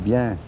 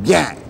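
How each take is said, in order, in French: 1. Le mot est dit doucement et calmement. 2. Le mot est crié fort.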